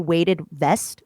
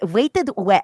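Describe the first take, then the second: First: The second word starts with a clear V sound. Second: The second word starts with a W sound. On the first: The speaker calls it right. "now I know it, but I'll say weighted vest" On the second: The speaker calls it wrong. "But if I say it randomly, I'm like"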